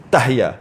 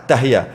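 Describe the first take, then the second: The two takes are said the same way.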